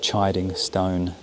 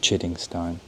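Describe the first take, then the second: First: The first vowel is long, like 'eye'. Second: The first vowel is short, like 'kid'. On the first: The speaker calls it right. "I just found out it is the chiding stone" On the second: The speaker calls it wrong. "not the chidding stone. So I was pronouncing it incorrectly"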